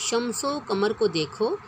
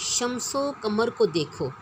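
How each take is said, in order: Both takes have the same delivery.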